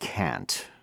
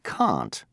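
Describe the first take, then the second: First: It is said in an American accent. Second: It is said in a British accent. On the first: "most Americans say can't" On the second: "the British say can't"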